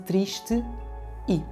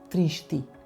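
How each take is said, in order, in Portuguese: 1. As duas vogais são ditas como sílabas separadas. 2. As duas vogais fundem-se numa só sílaba. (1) "em vez de triste, i" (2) "ficando tristi"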